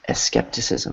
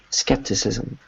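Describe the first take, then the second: First: An extra vowel sound comes before the S. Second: The word starts directly with the S sound. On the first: The speaker calls it wrong. "That E sound, that E you have in front of the S" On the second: The speaker calls it right. "make sure that you avoid that in English"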